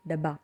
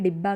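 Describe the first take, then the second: First: डब्बा said with a short a instead of the Hindi i; Marathi dabba. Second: Said in the usual way. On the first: Shown as a demonstration. Teacher to learners, Marathi डब्बा with short a. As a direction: open the first vowel of डब्बा. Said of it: "इसे मराठी में कहते हैं". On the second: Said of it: "जिसे हिंदी में डिब्बा कहते हैं".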